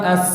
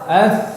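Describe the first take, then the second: First: The consonant is a hissing s-like sound. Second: The consonant is a soft breathy th-like sound. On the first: The speaker calls it wrong. "bukan as" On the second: The speaker calls it right. "Yang benar"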